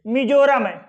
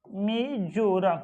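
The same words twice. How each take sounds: First: Said in the usual way. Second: Slow dictation. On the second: Shown as a demonstration. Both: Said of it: "Manipur, sorry".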